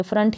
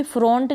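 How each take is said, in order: First: फ्रंट with a short "uh", "frunt"; correct pronunciation. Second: फ्रंट with a round o, "front" as in "fr-own-t" without the w; wrong pronunciation. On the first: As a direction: say फ्रंट to rhyme with hunt. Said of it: "फ्रंट ही पढ़ेंगे". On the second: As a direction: misread फ्रंट as "frohnt". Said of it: "इसको भी फ्रंट नहीं पढ़ देंगे". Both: Shown as a demonstration.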